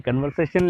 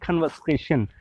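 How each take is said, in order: First: Said in the usual way. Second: कन्वर्सेशन with an aspirated K and no R, kʰənvəseʃən; British conversation. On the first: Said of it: "हम लोग पाकिस्तानी या Indian कहते हैं". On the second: Shown as a demonstration. Teacher contrasting the British कन्वर्सेशन with the local one. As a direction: drop the R in कन्वर्सेशन and breathe out on the K. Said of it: "British वाले कहते हैं".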